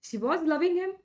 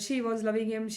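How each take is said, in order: First: The pitch rises and falls throughout. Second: The pitch stays flat throughout. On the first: The speaker calls it right. "ಈ ಥರ ನಿಮ್ಮ ಭಾಷೆಯಲ್ಲಿ ಏರಿಳಿತ ಇರಬೇಕು" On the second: The speaker calls it wrong. "ಈ ಥರ ಅಲ್ಲ"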